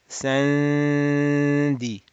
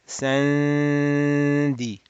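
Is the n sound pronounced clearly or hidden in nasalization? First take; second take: nasalized; nasalized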